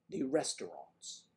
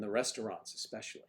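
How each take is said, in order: First: Slow, exaggerated Midwestern accent; Chicago-style Midwest accent, hammed up. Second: Said in the usual way. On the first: Shown as a demonstration. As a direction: draw it out in a caricatured Midwest accent. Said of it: "characterization of a Midwest accent".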